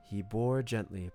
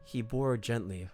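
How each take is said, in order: Both takes have the same delivery.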